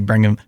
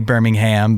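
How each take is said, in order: First: It is said with a British pronunciation. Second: It is said with an American pronunciation. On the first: "there they probably say Birmingham" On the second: "Here we would say Birmingham"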